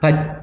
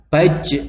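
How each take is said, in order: First: The final j stops dead without any echo. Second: The final j ends with a slight echoing bounce. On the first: The speaker calls it wrong. "Tidak boleh dibaca baj, baj itu salah" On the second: The speaker calls it right. "tapi harus dibaca baj. Nah itu adalah kolkolahnya"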